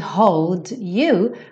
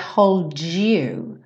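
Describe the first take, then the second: First: The d and y sounds stay separate. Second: The d and y blend into one sound.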